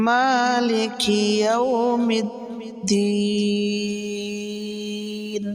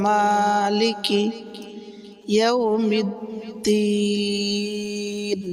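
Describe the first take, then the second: No difference in how they are said.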